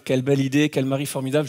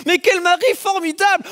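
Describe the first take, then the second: First: Playing the listeners' inner flattery; mock admiring thought. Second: Much higher, bright admiring exclaim; delighted thought. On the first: Preacher voicing the congregation's thought, mock admiring. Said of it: "tout ça c'est dans vos têtes". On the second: Retold or imitated. Wife gushing about her husband in the air, delighted. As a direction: gush about your husband. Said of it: "tu te dis".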